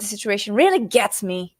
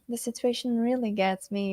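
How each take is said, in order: First: It is said in an irritated, annoyed tone. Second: It is said in a touched, emotional tone. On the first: The situation annoys the speaker a lot. "dependendo da entonação, pode ser que, nossa, isso aqui me irrita demais" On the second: The situation touches the speaker deeply. "Olha a diferença"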